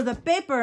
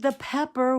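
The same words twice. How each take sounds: First: "paper" for pepper, imitated accent; Mexican-accented pepper. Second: Said in the usual way. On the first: Grandpa means pepper, says "paper" in accent. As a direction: say pepper with a long first vowel, "paper". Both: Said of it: "did have a very heavy accent".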